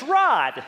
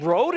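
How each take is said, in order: First: "Rod" with a short open o, said loud and higher; plain American Rod. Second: "Rode" said with a long o, like road, pitched up; mock the Scots "Rode", long o like road; Scottish Rode. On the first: Setting Alan straight, "Rod" with a short o, loud. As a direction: land hard on the short o in "Rod". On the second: Correcting Alan's "Rode" with a long o, like road. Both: Shown as a demonstration. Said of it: "That ain't Rode, it's Rod".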